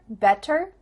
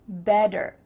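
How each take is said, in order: First: The middle consonant is a crisp T sound. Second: The middle consonant is a soft D sound. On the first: "do you hear better" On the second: "is going to change to a D"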